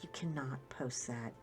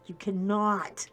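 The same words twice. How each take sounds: First: Whispered "You cannot post that" low and urgent; fierce low whisper, lower in pitch; hissed whisper. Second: Slow, firm "You cannot" said aloud; voiced, slower repeat of the warning. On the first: Retold or imitated. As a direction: whisper the warning at your husband. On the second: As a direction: spell it out slowly to him. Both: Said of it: "and I'm like".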